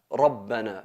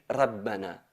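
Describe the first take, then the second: First: The r sound is heavy and emphatic. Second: The r sound is light and thin. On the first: The speaker calls it right. "es siempre enfatizada" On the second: The speaker calls it wrong. "No podemos decir"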